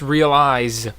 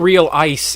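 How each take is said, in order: First: The last consonant is a z sound. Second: The last consonant is an s sound. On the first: The speaker calls it right. "I hear a Z when I say realize" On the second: The speaker calls it wrong. "not real ice"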